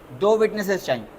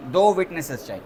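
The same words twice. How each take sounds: The two takes are said the same way.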